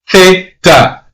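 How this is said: The word begins with a 'th' sound. The speaker is from Spain. "if you're born and raised in Spain, you're going to pronounce the letter Z as theta"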